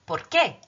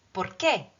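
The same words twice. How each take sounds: First: Por qué said like porky, stress on qué; Spanish por qué. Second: Por qué repeated calmly, qué falling; Spanish por qué. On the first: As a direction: model por qué with a punch on qué. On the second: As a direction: model por qué a second time, qué falling. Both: Shown as a demonstration. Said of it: "Porky Pig".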